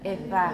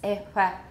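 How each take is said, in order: First: The fricative is made with a loose constriction. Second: The fricative is made with a loose constriction.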